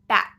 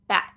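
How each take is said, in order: Both takes have the same delivery.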